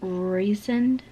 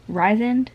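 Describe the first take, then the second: First: The first syllable sounds like 'reese'. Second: The first syllable sounds like 'rise'. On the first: The speaker calls it right. "one of them said reasoned" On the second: The speaker calls it wrong. "I've literally been saying it wrong"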